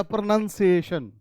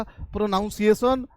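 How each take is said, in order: First: प्रोनंसिएशन with "nun" inside and "-shun" at the end; right-option pronunciation. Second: प्रोनाउंसिएशन with "noun" inside and "-son" at the end; wrong-option pronunciation. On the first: Teacher quizzing class with the correct option, प्रोनंसिएशन with "nun". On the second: Teacher quizzing class with the mistake, प्रोनाउंसिएशन with "noun". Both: Shown as a demonstration. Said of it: "आज के बाद से क्या बोलिएगा".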